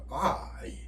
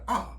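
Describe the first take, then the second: First: It is said slowly with both vowels heard. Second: It is said quickly and the second vowel drops. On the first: "천천히 발음할 때는 아이 첫 번째 아에서 음이 공명을 하다가 이를 탕 튕겨주겠죠" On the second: "빠를 때는 아 그 다음에 이가 날아가 버려요"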